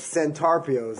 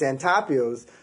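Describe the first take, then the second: First: The R in the middle is pronounced. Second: The R is dropped, Boston style.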